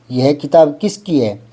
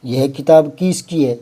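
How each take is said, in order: First: किसकी with a short first i; correct short vowel. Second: किसकी stretched to "kees-kee"; mock error, long ī opening किसकी; wrong long vowel. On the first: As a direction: keep the opening of किसकी brief, "kis-kee". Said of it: "किसकी तो ठीक है". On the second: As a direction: draw out the first i of किसकी. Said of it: "यूं थोड़ी होता है". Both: Shown as a demonstration.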